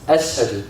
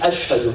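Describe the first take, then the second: First: The middle consonant is an 's' sound. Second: The middle consonant is a 'sh' sound. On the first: The speaker calls it wrong. "He couldn't say the sheen. It would come out as an S" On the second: The speaker calls it right. "he couldn't say ashhadu"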